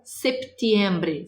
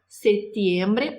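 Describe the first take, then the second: First: A P sound is heard before the T. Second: The word is said without a P sound. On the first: "Se tem o P, precisa pronunciar o P" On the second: "está correto dizer setembro ou septiembre"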